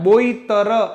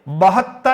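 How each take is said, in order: First: The word is said as 'boitar'. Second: The word is said as 'bahattar'. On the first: The speaker calls it wrong. "बोईतर ऐसा बोल लेते हैं, बोईतर नहीं है" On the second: The speaker calls it right. "बहत्तर है"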